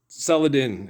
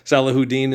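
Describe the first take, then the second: First: The name is said with three syllables. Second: The name is said with four syllables. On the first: This is the speaker's own way of saying the name. "Saladin is the way I say it" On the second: This is how other people say the name. "Salahuddin is what some of you call him"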